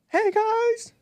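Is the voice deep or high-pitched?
high-pitched. The voice is high and squeaky. The speaker calls it wrong. "the high pitched, like Mickey Mouse"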